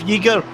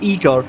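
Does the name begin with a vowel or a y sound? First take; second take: y sound; vowel. First: The name begins with a y sound. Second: The name begins with a plain vowel sound. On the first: The speaker calls it right. "instead of Yeager" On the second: The speaker calls it wrong. "I was pronouncing it Igor instead"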